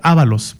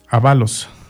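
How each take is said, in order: First: The stress is on the first syllable. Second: The stress is on the second syllable. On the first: This is the spelling found in another edition. "una edición donde decía Ábalos" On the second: This is the spelling in the speaker's own edition. "con acento en la segunda"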